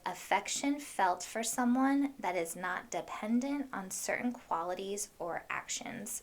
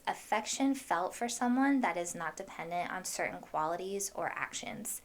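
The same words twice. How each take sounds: First: It is read a little more slowly. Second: It is read at a normal, quicker pace.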